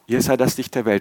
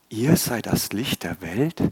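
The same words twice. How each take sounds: First: It is said as a statement, falling. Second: It is said as a doubtful question, rising.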